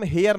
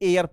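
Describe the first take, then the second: First: The word starts with an audible h sound. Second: The word starts with a vowel, no h. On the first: The speaker calls it wrong. "इसको हम हेयर नहीं पढ़ते" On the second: The speaker calls it right. "एयर पढ़ते हैं"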